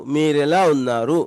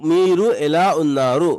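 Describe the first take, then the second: First: मीरेला उन्नारू with मीरू and एला run together into one word; easy everyday Telugu: मीरेला उन्नारू; contracted casual form. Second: मीरू एला उन्नारू with मीरू and एला kept as separate words; formal full Telugu: मीरू एला उन्नारू; full careful form. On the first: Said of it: "ऐसे ही बोल सकते हैं". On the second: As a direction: say मीरू, then एला, each word apart. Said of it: "थोड़ा सा फंसी बोलने के लिए मीरू एला उन्नारू". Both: Shown as a demonstration.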